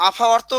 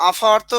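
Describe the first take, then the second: No difference in how they are said.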